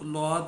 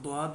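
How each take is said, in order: First: It begins with an l sound. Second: It begins with a d sound followed by w. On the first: This is how it is pronounced in Kerala. "Kerala वगैरह में इसको लौद भी कहते हैं" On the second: Many people pronounce it this way. "बहुत से लोग द्वाद भी पढ़ते हैं"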